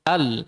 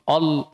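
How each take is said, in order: First: The vowel is open and unrounded, like 'a'. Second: The vowel is rounded, like 'o'. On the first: The speaker calls it right. "Langsung al" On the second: The speaker calls it wrong. "Kalau fathah dibaca A, jelas A, bukan O"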